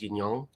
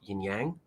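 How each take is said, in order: First: The second word sounds like 'yong'. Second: The second word sounds like 'yang'. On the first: The speaker calls it right. "Yang is pronounced Yong" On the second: The speaker calls it wrong. "not yin yang"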